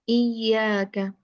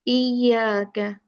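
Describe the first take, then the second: Both takes have the same delivery.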